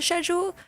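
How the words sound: The word is said the way UK speakers say it. "if you live in the U K, ... maybe you call it schedule"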